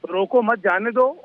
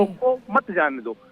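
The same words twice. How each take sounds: First: "रोको मत जाने दो" slow, rising on "दो"; slow demo read ending in a rise on "दो"; phrasing demo. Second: "रोको मत जाने दो" slow, falling hard on "मत"; group "रोको मत", pause, then "जाने दो"; slow contrasting read with the weight on "मत"; phrasing demo. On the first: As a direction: say "रोको" then pause, "मत जाने दो" with a lift on "दो". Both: Shown as a demonstration. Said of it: "ये दोनों चीजों में जो डिफरेंस है".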